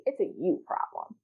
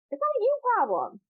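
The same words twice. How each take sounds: First: Said in the usual way. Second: "you" hit much higher, a firm correction; stress on you. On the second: Shown as a demonstration. Correcting listeners who blame themselves, "you" pushed high. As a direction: punch "you" up high to reject the idea. Emphatic correction of previous line.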